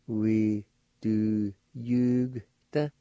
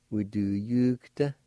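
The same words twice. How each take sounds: First: We do yugta drawn out very slowly; slow demonstration. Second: Said in the usual way. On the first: Shown as a demonstration. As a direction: stretch We do yugta so it can be copied. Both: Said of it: "like this".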